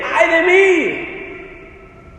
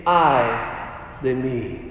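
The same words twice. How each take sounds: First: High, drawn-out exclamation; incredulous echo. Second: Low, hushed, broken by a pause; solemn woe. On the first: Preacher asking who would ever say this, incredulous. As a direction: cry it out slowly, pitched up in disbelief. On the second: Preacher voicing Isaiah cursing himself before God, solemn woe. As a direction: let it sink low and soft, word by word. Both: Acted.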